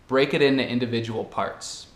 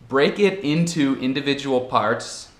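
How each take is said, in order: First: The word 'into' is reduced and linked. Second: The word 'into' is said in full.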